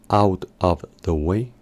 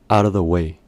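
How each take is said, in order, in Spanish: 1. La palabra 'of' se pronuncia completa y clara. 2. La palabra 'of' se reduce a casi nada. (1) "no se pronuncia como out of the way, así no se pronuncia por lo general" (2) "sino que se pronuncia out of the way ... el sonido of es imperceptible"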